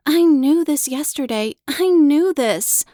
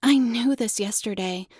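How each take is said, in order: First: Louder and higher, slowing at the end; frustrated outburst. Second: Said in the usual way. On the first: Acted. Child frustrated she forgot the lesson, louder and higher. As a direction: burst out in frustration.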